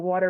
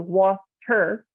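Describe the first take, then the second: First: It is said fast with the T barely heard. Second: It is said carefully with the T clearly heard. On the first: The speaker calls it wrong. "you say water very fast, you don't really hear the T in it" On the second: The speaker calls it right. "you're putting in a focus on that sound"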